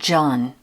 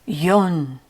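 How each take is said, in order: First: The name begins with a J sound. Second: The name begins with a Y sound. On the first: The speaker calls it wrong. "I called him John" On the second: The speaker calls it right. "He immediately corrected me"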